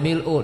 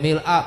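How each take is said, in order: First: The word ends with a 'u' vowel. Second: The word ends with an 'a' vowel. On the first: It is read as a descriptive attribute. "boleh mil'u" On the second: It is read as a circumstantial phrase. "Boleh mil'a"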